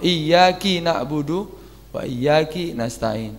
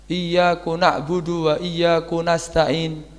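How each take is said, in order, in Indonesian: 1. Huruf k pada iyyaka diikuti i. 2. Huruf k pada iyyaka diikuti u. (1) "diganti dengan kasrah" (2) "mengganti dhammahnya enggak apa-apa"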